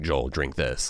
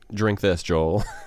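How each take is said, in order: First: It is said in a creepy voice. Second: It is said in a normal voice.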